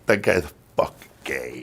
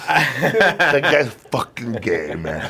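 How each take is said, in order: First: Low muttered insult. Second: Drawn-out, very slow, sneering; slow mocking mutter with a laugh; slow muttered insult. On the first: Retold or imitated. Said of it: "this is how I fucked up myself". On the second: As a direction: stretch every word of the insult slowly. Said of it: "And I went like this".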